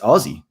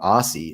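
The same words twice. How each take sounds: First: It has an Australian Z sound. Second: It has an American S sound.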